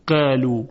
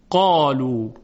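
First: قالو with a light, flat vowel; wrong thin qaf. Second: قالو with a rounded, heavy aa; heavy qaf. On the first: Teacher showing students the wrong light pronunciation. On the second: Teacher giving students the correct heavy form. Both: Shown as a demonstration.

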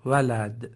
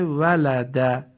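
First: ولد closed on a vowelless d; pausal silent ending. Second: ولد with a short "a" after the final d; final short vowel sounded. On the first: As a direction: stop dead on the d of ولد, "walad". (تلفظ ولد با دال ساکن) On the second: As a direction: say ولد slowly as "walada", ending on an open vowel. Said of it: "آخرش فتحه اومده". (تلفظ ولد با فتحهٔ آخر) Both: Shown as a demonstration.

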